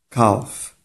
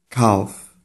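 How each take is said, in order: The two takes are said the same way.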